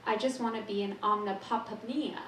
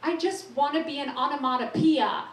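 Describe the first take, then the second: First: "omnipopnia" said as a garbled nonsense word; mangled word. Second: "onomatopoeia" finally landed, higher and louder; triumphant correct word. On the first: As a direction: fumble "omnipopnia" on purpose. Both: Shown as a demonstration. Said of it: "Rhyming song".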